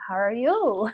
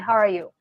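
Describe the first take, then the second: First: The pitch rises at the end. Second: The pitch falls at the end. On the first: "whereas when you have a question mark, it's like" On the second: "Rather than"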